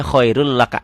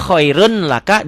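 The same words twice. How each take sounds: First: KHAIRUL LAKA with long doubled L; N merged into L. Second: KHAIRUN with a clear N before LAKA; written form with N. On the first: Teacher showing the reading, KHAIRUL with N lost. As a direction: drop the N, run KHAIRUL into LAKA. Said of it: "N-nya hilang". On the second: Teacher showing the spelling, KHAIRUN with sounded N. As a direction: keep KHAIRUN and LAKA apart by the N. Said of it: "Ditulisnya khairun laka". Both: Shown as a demonstration.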